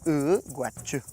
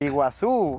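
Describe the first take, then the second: First: The first vowel is a central 'uh' sound. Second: The first vowel is a clear 'ee' sound. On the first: This is the original Guaraní form. "al del guaraní, de donde viene la palabra" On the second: This is the form adapted to Spanish. "es ya como se adaptó al, al español"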